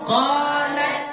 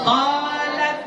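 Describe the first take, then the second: Both takes have the same delivery.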